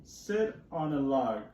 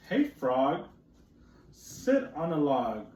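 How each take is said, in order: First: Slow, lightly voiced cat; cat's line again. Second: Lightly voiced cat, slow and firm; cat's line. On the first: Teacher rereading the cat's line, slow and plain-ish. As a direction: repeat the cat's order, slow and even. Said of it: "So the cat says". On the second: Teacher reading the cat to children, slow mild cat voice. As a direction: read the cat's demand, drawn out. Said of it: "said the cat".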